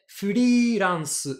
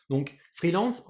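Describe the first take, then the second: First: Freelance said flilance, higher and louder, the R as an L; Japanese-style freelance. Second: Said in the usual way. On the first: Shown as a demonstration. Teacher saying freelance as Japanese do, higher and louder. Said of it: "en japonais". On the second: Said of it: "en japonais, freelance".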